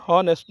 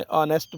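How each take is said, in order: First: "हॉनेस्ट" with an audible H; wrong, H sounded. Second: "ऑनेस्ट" starting on the vowel; silent H. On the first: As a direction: say "हॉनेस्ट", pronouncing the H. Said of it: "नहीं बोलना है". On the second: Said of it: "एच को silent करना है". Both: Shown as a demonstration.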